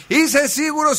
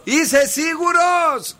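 First: High call, less stretched out; mock shout. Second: Very high, hugely drawn-out call; mock shout. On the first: Host repeating his warning signal for the caller, high mock shout. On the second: Host showing the caller his warning signal, long high mock shout. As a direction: demonstrate the hint, stretched out and high. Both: Shown as a demonstration. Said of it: "Όταν φωνάζω".

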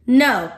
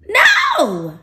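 First: Firm, fairly loud no without shouting. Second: Loud, high, drawn-out no; shouted refusal. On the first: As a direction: settle into a firm refusal. Repeats refusal, more contained. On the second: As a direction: cut off the tempter with a shout. Rejecting the devil's temptation. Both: Acted.

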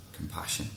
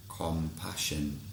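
First: Said in the usual way. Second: Slow, gentle emphasis. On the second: Shown as a demonstration.

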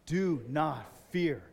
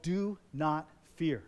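First: Slow, weighted Do not fear; spoken slowly. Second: Slow, weighted Do Not Fear; slow title. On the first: Preacher leading the congregation to say the title, slow. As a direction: model it slowly for them to repeat. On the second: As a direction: lay each word down slowly. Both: Shown as a demonstration. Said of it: "Say those words".

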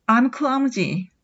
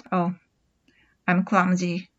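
First: Very slow, falling; drawn-out self-blame; with feeling. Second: Softer, lower, rueful sigh; with feeling. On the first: Teacher admits clumsiness slowly for students to copy. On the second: Teacher sighs about being clumsy, a touch dejected. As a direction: sigh it out in mild self-pity. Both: Shown as a demonstration. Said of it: "ちょっと感情表現を込めて言うと".

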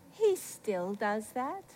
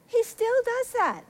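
First: Low, soft, very slow; quiet wonder. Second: High, slow exclamation; emphatic wonder. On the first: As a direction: let it out slowly and softly. Reflective first take, then exclaimed. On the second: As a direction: repeat it high and drawn out. Same words repeated with emphasis. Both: Real, not acted.

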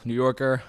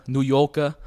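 First: Said in the usual way. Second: "New Yorker" as "Noo Yawkuh", louder; mock Brooklyn accent, punched out. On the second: Shown as a demonstration. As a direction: drop the r's in a thick New York accent. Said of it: "Very, very stereotypical New Yorker".

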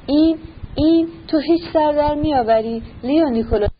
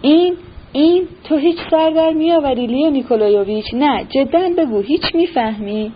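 First: Higher, only slightly raised annoyed general; a touch of exasperation, held back; lightly voiced confused anger, higher pitch; mild irritation. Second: A flustered general losing his temper; angry outburst. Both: A narrator's reading. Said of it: "با عصبانیت گفت".

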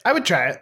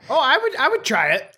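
First: Said in the usual way. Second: High, eager "would" pushed up; keen to try it, voice lifted. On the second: Real, not acted. Eager reply about the tarantula.

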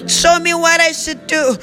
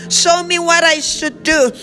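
The two takes are said the same way.

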